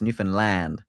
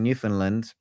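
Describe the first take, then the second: First: It uses the local pronunciation of the name. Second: It uses the British pronunciation of the name. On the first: The speaker calls it right. "We need to we need to pronounce it right" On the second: The speaker calls it wrong. "I think that's kinda how the Brits say it"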